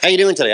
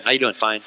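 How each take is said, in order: First: Bright, a little higher and eager; upbeat greeting. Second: Deflated and a bit lower; flat, no attitude. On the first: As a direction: greet the room like an eagle. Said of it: "if you walk in saying "How you doing?". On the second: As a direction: mumble it like a listless duck. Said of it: "and you have no attitude". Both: Retold or imitated.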